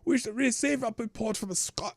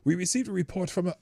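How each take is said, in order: First: It is read in an attempted Scottish accent. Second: It is read in the speaker's plain accent.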